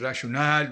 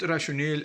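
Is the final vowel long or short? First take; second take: long; short. First: The final vowel is long and stressed. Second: The final vowel is short and unstressed. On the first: The speaker calls it right. "It is rationale. We extend the last A" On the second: The speaker calls it wrong. "not rationale as some people uh, pronounce it"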